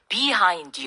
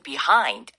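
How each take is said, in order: First: The stress is on the first syllable. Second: The stress is on the second syllable. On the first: The speaker calls it wrong. "영어로 말할 적에도 behind you라고 하는 경우를 가끔 들을 수가 있습니다" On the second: The speaker calls it right. "뒤에 hind에 강세가 와서 behind 이렇게 되더라고요"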